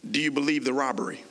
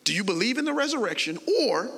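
First: Rushed question; fast. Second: Rattled off fast. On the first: Preacher rattles off the robbery question quickly. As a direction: race through the robbery question. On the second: Preacher rattles off the question to the church, fast. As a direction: rush the question out quickly. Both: Shown as a demonstration. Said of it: "see how fast that was?".

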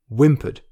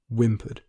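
First: Whimpered said louder and rising; stressed whimpered. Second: Said in the usual way. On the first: Shown as a demonstration. To listeners, picking out the word Whimpered with stress. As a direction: lean hard into Whimpered. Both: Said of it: "The word".

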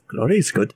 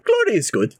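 First: Glory said again low and settled; low echo. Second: Glory said high, then falling away; high savouring. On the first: Drunk artificer repeats it to himself, low and musing. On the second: Drunk artificer toasts the glory, high and savouring. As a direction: lift GLORY up high and let it drop. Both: Acted.

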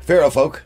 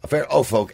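First: "Fear of Folk" with "of" said as a quick, weak "uh"; "of" swallowed almost into a plain "uh"; slip on the band name. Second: "Fear of Folk" with "of" said as a clear "oh"; "of" opened into a long round "oh"; corrected band name. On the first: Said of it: "I was gonna say of Folk". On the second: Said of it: "It's not of". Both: Shown as a demonstration.

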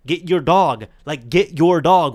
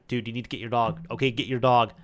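First: Much louder, forceful command to get the dog; firmer. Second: Said in the usual way. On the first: Retold or imitated. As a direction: bark the order, losing patience, slower. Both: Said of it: "and I'm kinda getting firmer as well".

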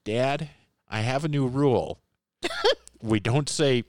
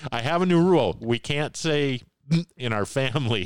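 First: Lightly voiced little kid, a touch higher; hint of a four-year-old laying down the law; cherubic child voice. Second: Put-on high, louder little kid voice; cherubic child voice. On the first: Four-year-old son in the back seat announces a rule, lightly childlike. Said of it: "this little cherubic voice from the back seat go". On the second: Four-year-old son in the back seat declares a family rule, high and childlike. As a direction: play the small boy proudly declaring his rule. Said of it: "this little cherubic voice from the back seat".

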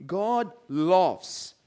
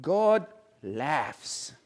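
First: Laughs said as luffs; God laughs said like luffs; mispronounced laughs. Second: Laughs said as laffs; careful corrected God laughs. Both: Shown as a demonstration. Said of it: "Okay, I'll say it correctly".

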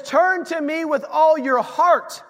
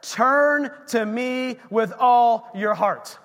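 First: All pushed up and louder, slowed; stress on all. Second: Slow it right down and lean on Turn; slow, emphatic scripture line. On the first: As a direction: hammer home all your heart. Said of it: "Not, it says". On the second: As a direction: Turn drawn out, every word weighted. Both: Shown as a demonstration.

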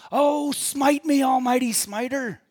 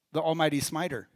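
First: Loud, high, drawn-out yell; yelling at heaven. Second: Said in the usual way. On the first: Retold or imitated. Preacher imitates Bruce yelling at God in heaven, loud defiant yell. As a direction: shout it up at God, imitating a desperate man. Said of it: "he yells at God in heaven".

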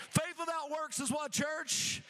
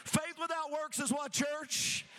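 The two takes are said the same way.

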